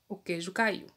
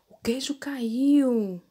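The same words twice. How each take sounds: First: It is said in a serious, flat tone. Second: It is said in an amazed, surprised tone.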